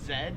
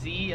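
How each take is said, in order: First: The letter is pronounced as zed. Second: The letter is pronounced as zee. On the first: "but in Australia they pronounce it Z" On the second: "so I pronounce it Z as I just said"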